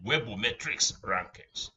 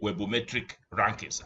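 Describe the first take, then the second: First: The first word ends with an s sound. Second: The first word ends without an s sound. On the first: The speaker calls it right. "I said webometrics rankings" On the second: The speaker calls it wrong. "I did not say webometric rankings"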